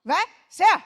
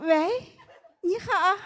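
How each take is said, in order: First: It is said in a blunt, curt voice. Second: It is said in a sweet, cutesy voice.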